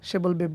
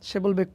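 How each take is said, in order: No difference in how they are said.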